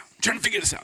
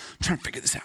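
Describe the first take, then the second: First: Said in the usual way. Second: Whispered aside, puzzling it out; softer whispered self-talk; whispered to himself. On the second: Acted. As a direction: whisper it as if thinking aloud. Preacher muttering to himself.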